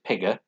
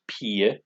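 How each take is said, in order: First: The middle consonant is pronounced clearly and hard. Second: The middle consonant is softened or swallowed. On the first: The speaker calls it wrong. "it looks like pigger" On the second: The speaker calls it right. "but it's pronounced pige"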